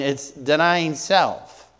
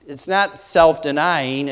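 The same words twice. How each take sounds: First: "denying self" drawn out, weight on denying; slow stress on denying self. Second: Said in the usual way. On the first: Shown as a demonstration. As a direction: lean into "denying", slowly.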